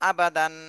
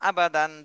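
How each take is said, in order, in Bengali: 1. b-এর পরের স্বরবর্ণটি ছোট রাখা হয়। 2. b-এর পরের স্বরবর্ণটি ছোট রাখা হয়।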